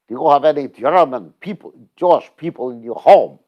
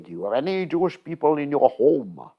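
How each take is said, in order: First: It is said in a put-on German accent. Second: It is said in the speaker's normal accent.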